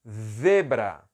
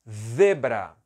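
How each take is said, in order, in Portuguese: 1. Começa com um z ceceado, parecido com th. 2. Começa com um z ceceado, parecido com th.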